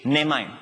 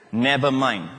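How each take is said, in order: First: It is said in a Singlish accent. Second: It is said in a standard English accent. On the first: "You say N-E-H" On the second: "That's proper"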